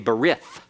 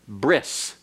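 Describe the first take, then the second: First: The word ends in a th sound. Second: The word ends in an s sound. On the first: "That's an anglicized pronunciation that is incorrect Hebrew" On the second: "modern Hebrew uh, pronunciation is bris"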